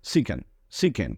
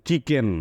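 First: চিকেন said with an s-like স sound at the start; corrected reading. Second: চিকেন said with a চ sound, the way students used to; the mistaken চ version of চিকেন; old wrong reading. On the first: Teacher correcting the class, slow and with a স. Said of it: "C এর পরে H আছে". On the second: Teacher showing the old wrong reading, with a চ. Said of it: "আমরা কিন্তু চিকেন পড়তাম". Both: Shown as a demonstration.

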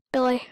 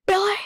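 First: Said in the usual way. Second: Sharp high shout of Billy!; yelling a name. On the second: Real, not acted. Gamer yelling at the character Billy, loud high shout.

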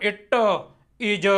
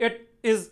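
First: "It is" with the t and z pushed out into an extra uh; "It is" word by word, endings heavily released; overpressed final consonants. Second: "It is" short, with t and z barely sounded; light word endings. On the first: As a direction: lean hard on the last sound of each word in "It is". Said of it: "ਮੈਂ ਇਹਨੂੰ ਐਂ ਨਹੀਂ ਪੜ੍ਹਨਾ". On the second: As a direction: say "It is" word by word without pushing the endings. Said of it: "ਟੈਂਕੀ ਦੀ ਆਵਾਜ਼ ਬਾਹਲੀ ਕੱਢੀ ਨਹੀਂ". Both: Shown as a demonstration.

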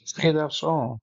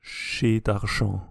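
First: Chez Darchamps repeated with English sounds, plain s and no French r; anglicized repeat. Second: Chez Darchamps said slowly with French sounds, uvular r and nasal ending; French pronunciation. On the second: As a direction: say Chez Darchamps like a native French speaker, slow. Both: Shown as a demonstration. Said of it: "who's the French guy?".

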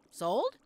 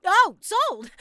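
First: Short, rising, unsure question; tentative question. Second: Loud, high burst of delight; thrilled exclamation. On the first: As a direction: ask it as if not daring to believe. Checks whether customer really buys. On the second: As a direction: cry out at clinching the sale. Thrilled at making the sale. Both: Acted.

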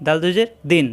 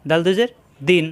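Both takes have the same delivery.

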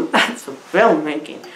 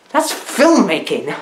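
First: Quieter deadpan praise. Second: Mock-serious praise. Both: Shown as a demonstration.

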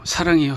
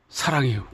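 First: Louder, more earnest 사랑해요; stronger confession. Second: Said in the usual way. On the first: Acted. Confession repeated more forcefully.

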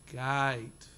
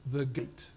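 First: "gate" drawn out long and flat, like "gite"; Australian gate. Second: Gate with a short English vowel; clipped English "gate", short ay sound. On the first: Lecturer teaching the audience the Australian "gate". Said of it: "make it very long and flat". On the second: Lecturer demonstrating how the English say "gate". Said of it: "the English will say". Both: Shown as a demonstration.

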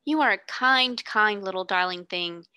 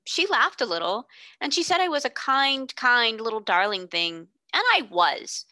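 First: Lightly voiced grateful girl. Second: Put-on a boy proud of his good deed; stout little boy. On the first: Sarah thanks the boy.

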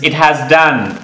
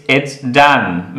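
First: IT HAS as two separate words; full uncontracted form. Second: IT'S as one syllable, slowly modelled; contracted it's. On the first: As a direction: sound HAS in full, slowly, after "it". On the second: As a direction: join it and has into "it's", ending in s. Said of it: "means it has done". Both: Shown as a demonstration.

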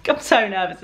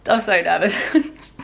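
First: "I'm so nervous" with a laugh. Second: Slow, drawn-out "I'm so nervous"; "I'm so nervous" stretched out slowly. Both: Real, not acted.

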